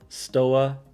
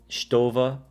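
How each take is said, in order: First: The name is said in an anglicized pronunciation. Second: The name is said in its original pronunciation. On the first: "because that's just how I say it" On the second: "I'm going to say it properly for you guys"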